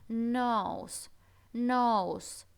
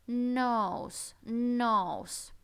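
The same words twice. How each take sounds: No difference in how they are said.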